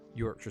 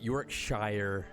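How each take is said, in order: First: The word is said in a British accent. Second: The word is said in an American accent.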